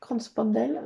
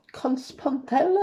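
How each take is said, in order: First: Said in the usual way. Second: Slow, unsure stab at a German accent; amateur German accent, drawn out with a questioning rise; attempted German accent. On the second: Shown as a demonstration. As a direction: stretch it out in a tentative German accent. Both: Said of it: "j'ai pas l'accent allemand".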